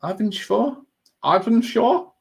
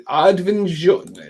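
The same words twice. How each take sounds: First: Arvinsjaur with a put-on Swedish accent, rising like a question. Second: Arvinsjaur drawn out slowly in a put-on Swedish accent. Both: Shown as a demonstration. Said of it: "Trying to put the accent on".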